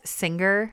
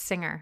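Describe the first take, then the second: First: The g is pronounced as a hard sound. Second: The g is not pronounced as a separate sound. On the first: The speaker calls it wrong. "Just really pronounce that G" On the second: The speaker calls it right. "It's singer"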